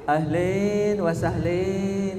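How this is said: The words end with an 'in' sound. This is how Syrians say it. "Kalau bahasa Syria ... Jadi turun kayak orang Cianjur"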